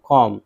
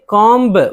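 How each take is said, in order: First: The b sound is silent after the m. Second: The b sound is pronounced after the m. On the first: The speaker calls it right. "बा यहाँ silent है" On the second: The speaker calls it wrong. "अब ये कॉम्ब बा नहीं है"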